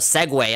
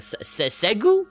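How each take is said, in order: First: The word ends with a 'way' sound. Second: The word is read out from its spelling. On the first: This is how people actually say the word. "when people say it out loud" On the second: This is how the written word looks when read. "whenever I see it, I'm like"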